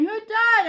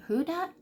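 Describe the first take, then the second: First: High, loud crying question; tearful question. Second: Higher, puzzled question; confused question. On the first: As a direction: ask it through tears. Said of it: "I'm crying". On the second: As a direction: ask it clueless and surprised. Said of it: "And so I was like". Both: Retold or imitated.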